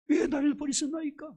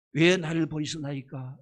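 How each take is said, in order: First: 왜 나를 버리시나이까 cried out much higher; anguished high cry. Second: Heavy lament. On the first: Jesus on the cross crying to God, 왜 나를 버리시나이까 high and anguished. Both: Retold or imitated. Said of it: "그것도 얼마 컸던지".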